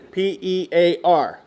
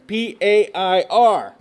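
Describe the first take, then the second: First: «P E A R» épelé lettre par lettre, lentement; spelled out. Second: «P A I R» épelé lettre par lettre, lentement; spelled out. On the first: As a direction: spell P E A R slowly, letter by letter. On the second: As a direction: spell P A I R slowly, letter by letter. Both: Shown as a demonstration. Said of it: "spelled out letter by letter".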